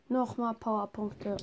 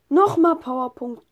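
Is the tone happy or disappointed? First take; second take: disappointed; happy. First: It is said in a disappointed, negative tone. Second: It is said in a pleased, positive tone.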